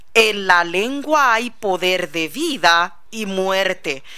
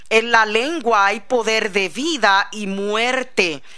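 No difference in how they are said.

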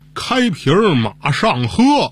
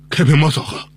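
First: The phrase is spoken slowly with each syllable clear. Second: The phrase is spoken quickly and blurred together. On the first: It turns out to be a plain Chinese sentence. "您再慢点说" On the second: It is passed off as a French sentence. "我给你们说一句"

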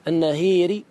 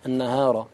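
First: The long vowel leans toward an 'ee' sound. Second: The long vowel is a plain open 'aa'. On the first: "النهير تمال" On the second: "النهار تفتح"

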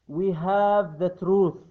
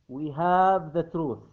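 Both takes have the same delivery.

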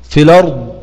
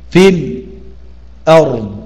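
First: The hamza drops and the vowel links onto the l. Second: There is a brief stop before the hamza. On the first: "بالنقل" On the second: "والسكت"

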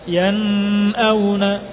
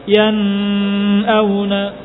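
The two takes are said the same way.

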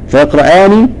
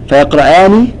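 Both takes have the same delivery.

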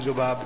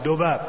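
First: The word starts with a soft 'th' sound. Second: The word starts with a hard 'd' sound. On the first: This is the standard pronunciation. "ما هو ذباب" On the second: The narrator could not pronounce the 'th' sound. "لأنه لا ينطق الذال، يقول دباب"

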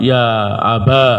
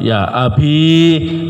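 First: The word ends in a long a vowel. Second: The word ends in a long i vowel. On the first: "Kasrahnya diganti fathah, ya'nya diganti alif" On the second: "Ya-nya dipakai dalam keadaan sukun"

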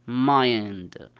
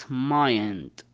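The two takes are said the same way.

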